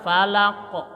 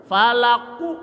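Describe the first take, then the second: First: "Falako" with a short snapped bounce on the q; right qalqalah. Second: "Falaku" with an added vowel after the q; wrong qalqalah. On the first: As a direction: let the q break off sharply. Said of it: "Ini enak ke patah". ("Falako" dengan pantulan patah) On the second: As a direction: bounce the q into an extra "u". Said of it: "nggak enak". ("Falaku" dengan tambahan huruf) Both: Shown as a demonstration.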